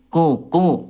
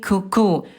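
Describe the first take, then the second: First: The consonant is made between those two positions. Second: The consonant is made too far forward, like k. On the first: The speaker calls it right. "yang betul adalah yang ketiga. Nah, di sini tengah-tengahnya" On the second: The speaker calls it wrong. "yang kedua dia terlalu ke depan ke kafnya"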